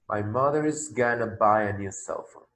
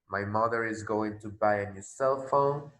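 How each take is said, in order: First: Going to is reduced to one word, gonna. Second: Going to is said in full, two words. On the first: This suits casual, informal speech. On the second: This suits formal or careful speech.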